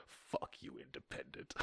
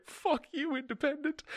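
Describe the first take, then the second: First: Breathy whisper, gloating; whispered taunt. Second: Very high squeaky taunt; shrill taunt. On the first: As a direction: hiss the taunt under breath. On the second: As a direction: screech it like a gleeful villain. Shrill taunt, first take. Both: Acted.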